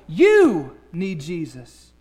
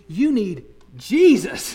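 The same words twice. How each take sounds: First: The stress is on the word you. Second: The stress is on the word Jesus.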